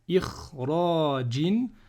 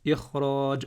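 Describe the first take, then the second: First: The word ends with a vowel and n. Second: The word ends on a bare j sound. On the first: The reading continues without a stop. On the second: The reader stops on this word.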